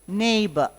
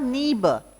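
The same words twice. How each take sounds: First: The first vowel sounds like 'ay'. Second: The first vowel sounds like 'ee'. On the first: The speaker calls it right. "It's a neighbor, A" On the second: The speaker calls it wrong. "It's not neighbor"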